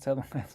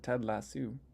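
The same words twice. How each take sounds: First: Lasso is said with the American pronunciation. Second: Lasso is said with the Canadian pronunciation. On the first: "is it still pronounced" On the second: "do they pronounce it"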